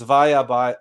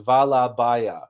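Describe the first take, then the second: First: The first word's middle consonant is a Y sound. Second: The first word's middle consonant is an L sound. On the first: The speaker calls it right. "it's vaya baya" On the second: The speaker calls it wrong. "because it's not vala baya"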